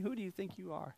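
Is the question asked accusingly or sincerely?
sincerely. It is asked as a plain, sincere question.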